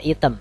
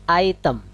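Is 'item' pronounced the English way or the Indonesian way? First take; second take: Indonesian; English. First: It is said with an Indonesian-style pronunciation. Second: It is said with an English pronunciation. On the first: The speaker calls it wrong. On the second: The speaker calls it right.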